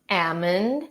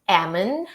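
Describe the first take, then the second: Both takes have the same delivery.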